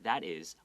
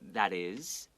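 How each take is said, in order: First: The word 'is' is said short. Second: The word 'is' is drawn out long. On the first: The speaker calls it wrong. "比较不会是念 that is" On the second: The speaker calls it right. "那个 is 会拉长"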